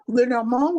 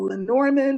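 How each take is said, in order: First: The name is said with a French pronunciation. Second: The name is said with an American pronunciation. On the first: "would be the French pronunciation" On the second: "but we say Lenormand"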